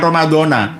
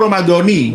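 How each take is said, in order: First: The word ends with an 'a' vowel. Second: The word ends with an 'i' vowel. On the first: The speaker calls it wrong. "bukan ramadhana" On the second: The speaker calls it right. "Yang benar itu ramadhani"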